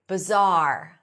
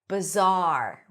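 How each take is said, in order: Both takes have the same delivery.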